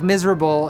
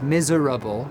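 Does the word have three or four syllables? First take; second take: three; four. First: The word is said with three syllables. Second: The word is said with four syllables. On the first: This is the modern pronunciation. "in modern English is three syllables" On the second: This is how it was said in Shakespeare's time. "at the time was miserable because it's spelled with four syllables"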